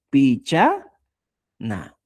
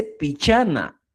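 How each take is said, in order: First: PICHANA slowly, split as "picha" and "na"; syllable by syllable. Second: Said in the usual way. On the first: Shown as a demonstration. Teacher writing out the word, syllable by syllable. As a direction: draw out PICHANA with a break before "na". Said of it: "Y voy poniendo". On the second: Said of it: "Escoba se dice".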